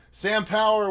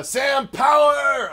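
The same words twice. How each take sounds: First: Said in the usual way. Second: High, slow announcer shout of the name; hype shout. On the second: Pretend. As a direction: stretch it out like a ring announcer. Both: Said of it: "had to do it that way".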